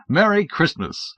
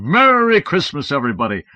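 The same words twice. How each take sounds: First: Higher, slow and hearty; a slow, sunny Merry Christmas to a six-year-old; genial greeting. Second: Santa's merry greeting. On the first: A narrator's reading. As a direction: greet the child like a jolly uncle. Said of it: "I said genially". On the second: Acted. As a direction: boom it to the whole room. Helpers greeting the kids.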